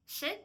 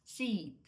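First: "Sit" with a short, hard i. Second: "sit" stretched like "seat", long ee. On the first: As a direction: clip the vowel in "Sit" short. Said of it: "Воно є коротке". ("Sit" з коротким твердим «и») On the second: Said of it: "довге і трошки м'якіше". ("sit" з довгим м'яким «і») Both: Shown as a demonstration.

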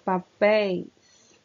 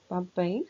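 First: "Papéis" said loud and slow, landing on the final "-péis"; teacher unveils the oxytone with weight on "péis"; answer revealed. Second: Said in the usual way. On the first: Shown as a demonstration. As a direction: announce the answer, stretching "Papéis". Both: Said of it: "Vamos identificar?".

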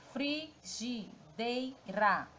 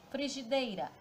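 First: "frigideira" very slowly, fri-gi-dei-ra; sílaba por sílaba. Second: Said in the usual way. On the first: Shown as a demonstration. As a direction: sound out "frigideira" in four separate, drawn-out syllables. ("frigideira" bem devagar, separando: fri-gi-dei-ra) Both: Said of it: "Já separando a sílaba".

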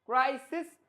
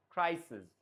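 First: Said in the usual way. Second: ক্রাইসিস falling to a voiced জ ending; voiced last consonant in ক্রাইসিস; final j sound. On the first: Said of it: "এটা কি ক্রাইসিস". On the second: Shown as a demonstration. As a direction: end ক্রাইসিস on a buzzed j, pitch dropping. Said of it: "লাস্টে যে জ".

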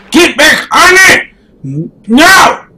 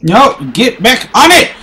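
First: Higher shouted command; real yell. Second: Said in the usual way. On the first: Real, not acted. Player yelling at his game character, frustrated shout. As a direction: bark it at the screen in frustration.

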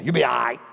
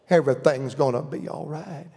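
First: Brusque, lower-pitched reassurance; less than compassionate. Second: Gentle, hushed reassurance; compassionate. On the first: Daddy reassuring his child, with little compassion. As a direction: brush it off in a few quick words. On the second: Mama reassuring her baby, tender and compassionate. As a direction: soothe like a mama comforting her child. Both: Retold or imitated. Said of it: "My daddy wouldn't say it quite compassionate".

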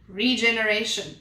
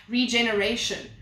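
No difference in how they are said.

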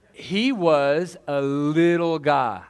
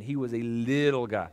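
First: Slow and drawn out. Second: Said in the usual way. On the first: Shown as a demonstration. Pastor to congregation about his adopted son, slow and drawn out. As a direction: stretch every word slowly after a laugh.

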